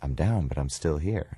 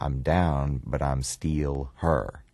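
First: Plain standard vowels in still and here. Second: Clear Memphis vowels: steal and her. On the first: "And he said" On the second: "don't say still, say steal. And don't say here, say her"

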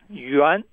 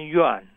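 First: The pitch dips down and then rises. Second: The pitch does not dip and then rise. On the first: The speaker calls it right. "So it sort of starts down and then goes up" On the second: The speaker calls it wrong. "rather than yuan"

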